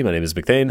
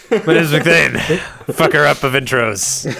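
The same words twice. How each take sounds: First: Said in the usual way. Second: Booming mock-heroic self-introduction, higher and louder; mock grand. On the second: Host re-announcing himself after botching the intro, mock grand. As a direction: proclaim it like a fallen champion.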